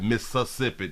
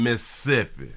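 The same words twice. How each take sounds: First: Every syllable of the word is clearly pronounced. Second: Some syllables of the word are dropped or reduced. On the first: The speaker calls it wrong. "We don't even pronounce the whole word like Mississippi" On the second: The speaker calls it right. "No, no, no. They in Mississippi"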